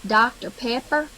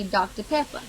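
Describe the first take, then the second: First: "Doctor Pepper" with full R sounds; North Louisiana pronunciation. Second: "Doctor Pepper" with the final R dropped; South Louisiana pronunciation. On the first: Contrasting north and south, "Doctor Pepper" with clear Rs. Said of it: "North Louisiana would say". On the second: Contrasting north and south, "Doctor Pepper" without the ER. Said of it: "South Louisiana would say". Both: Shown as a demonstration.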